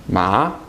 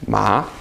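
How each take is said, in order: Both takes have the same delivery.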